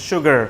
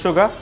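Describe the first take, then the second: First: American sugar. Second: British sugar. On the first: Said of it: "In American accent". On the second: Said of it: "In British accent". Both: Shown as a demonstration.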